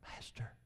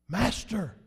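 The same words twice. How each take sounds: First: The word is said quietly and calmly. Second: The word is shouted loudly and urgently. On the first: A calm, matter-of-fact report of the situation. The speaker calls it wrong. "I doubt very seriously they'd say" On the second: A desperate cry for help in danger. The speaker calls it right. "If I could say it louder, I would"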